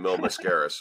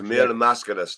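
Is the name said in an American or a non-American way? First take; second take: American; non-American. First: The name is said with an Americanized pronunciation. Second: The name is said without an Americanized pronunciation. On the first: The speaker calls it wrong. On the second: The speaker calls it right. "But it's Mil Mascaris"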